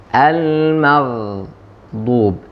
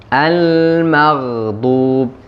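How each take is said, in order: No difference in how they are said.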